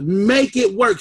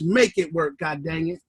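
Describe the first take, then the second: First: Said in the usual way. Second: Low, soft, under-the-breath "Make it work"; a low, quiet aside, "Make it work, God dang it"; muttered command. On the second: Real, not acted. Firm muttered order after thanks.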